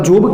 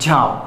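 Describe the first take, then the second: First: The vowel sounds like 'oh'. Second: The vowel sounds like 'ah'. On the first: The speaker calls it wrong. "તમે ઓ ઉચ્ચારણ કરતા હો તો આ જોબ કહેવાય?" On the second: The speaker calls it right. "આમ એનું ઉચ્ચારણ થાય છે જાબ"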